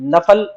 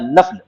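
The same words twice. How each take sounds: First: A short a vowel follows the f sound. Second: No vowel follows the f sound. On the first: "फा के फतहे" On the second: "सुकून के साथ"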